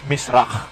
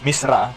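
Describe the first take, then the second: First: It is said with the original Hebrew pronunciation. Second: It is said the way English readers pronounce it. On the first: The speaker calls it right. "ang tamang pronunciation is misrach" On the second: The speaker calls it wrong. "Sa mga English uh, readers, misra"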